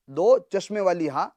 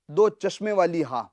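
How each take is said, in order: Both takes have the same delivery.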